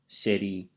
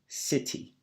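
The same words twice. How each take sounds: First: The T is flapped like a D, American accent. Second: The T is pronounced clearly, in a British accent.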